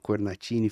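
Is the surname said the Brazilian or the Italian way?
Italian. The surname is said the Italian way.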